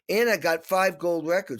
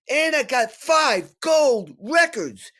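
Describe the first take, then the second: First: The line is delivered flatly with little energy. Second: The line is delivered with lively, passionate energy. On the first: This is how it actually came out on the recording. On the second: This is how it felt while speaking.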